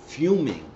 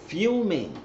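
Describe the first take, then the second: First: Fuming said higher and louder; emphatic. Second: Fuming repeated, higher still and drawn out; stretched emphasis. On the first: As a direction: lean on fuming. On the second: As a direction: stretch fuming up high for effect. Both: Real, not acted.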